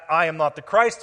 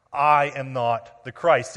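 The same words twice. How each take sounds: First: Said in the usual way. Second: Each word laid down slowly, weight on I; slow emphatic denial. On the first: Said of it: "is structured brings further emphasis". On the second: Acted. John flatly refusing the Messiah title to questioners, slow and firm. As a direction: deny it slowly and firmly, word by word. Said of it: "Are you listening?".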